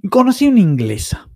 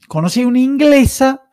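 First: Said in the usual way. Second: Conocí una inglesa lifted much higher; high repeat. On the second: Shown as a demonstration. Retelling a documentary to friends, repeats it pitched high.

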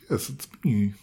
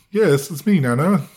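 First: Said in the usual way. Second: Higher, louder, hammed-up hello; overdone cheery yell; mock overloud greeting. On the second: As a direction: shout it like greeting a deaf grandma, as a joke. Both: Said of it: "I didn't say it like that".

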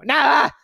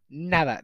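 First: Sudden high shout on "nada". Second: Said in the usual way. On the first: Shown as a demonstration. Showing how the story wrote it, shouts nada at listeners. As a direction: yell "nada" out, much higher and louder. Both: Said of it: "Lo pone como gritando".

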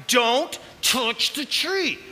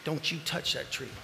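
First: "Don't touch the tree" slow, each word weighed, stress on tree; slow emphatic. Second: Much softer, low stern warning; quiet warning. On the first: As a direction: let every word land slowly. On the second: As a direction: hush it like a private command. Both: Shown as a demonstration. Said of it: "Pausing for effect".

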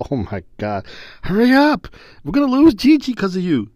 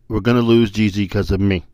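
First: Put-on high, loud, impatient kid; grandson's impatient whine. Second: Said in the usual way. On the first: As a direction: whine it out like a frustrated toddler.

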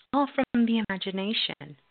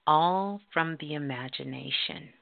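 First: "All from the imagination" higher, with "All" hit hard; emphatic repeat. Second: Said in the usual way. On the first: Shown as a demonstration.

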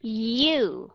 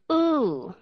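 First: U with y added in front, yoo; glided yoo sound. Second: U as a long oo, higher in pitch; plain oo sound. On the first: Teacher adding y to the base sound, drawn-out demonstration. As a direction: stretch "U" as a long yoo. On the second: Teacher giving the base sound before adding y, drawn-out demonstration. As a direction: stretch "U" as pure oo, no glide. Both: Shown as a demonstration. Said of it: "Thêm âm giờ phía trước".

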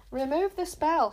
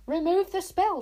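First: Higher, louder, slow furious demand; angry shout at a rival. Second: Much higher, louder furious shout; enraged boy screaming an order. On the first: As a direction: bark the order through anger. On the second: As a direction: yell it, losing control. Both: A narrator's reading. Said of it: "shouted Tsar".

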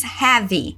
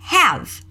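First: The common Brazilian mistake on have; wrong pronunciation. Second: The native way to say have, slowly; right pronunciation. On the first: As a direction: have with an extra vowel at the end, like hévi. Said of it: "Não se diz have". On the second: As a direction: have ending cleanly on the v, no vowel after. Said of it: "mas sim have". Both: Shown as a demonstration.

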